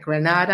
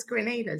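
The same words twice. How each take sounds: First: Grenada as gruh-NAH-da, stress on the long AH; wrong pronunciation. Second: Grenada as gre-NAY-da, stress on the NAY; correct pronunciation. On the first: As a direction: say Grenada with NAH like in Granada, Spain. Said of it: "so many people are like". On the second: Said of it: "I'm like, "No, it's". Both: Retold or imitated.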